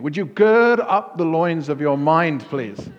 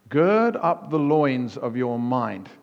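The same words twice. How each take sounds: First: Louder, higher mock plea to a sleepy colleague; mock request. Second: Slow, weighty scripture reading; slow, stately King James reading; solemn reading. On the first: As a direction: loudly say "Would you gird up the loins of your mind" to wake someone. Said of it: "Try that with a colleague". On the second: Shown as a demonstration. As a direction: read "Gird up the loins of your mind" slowly, stressing "Gird". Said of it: "The New King James Version says this".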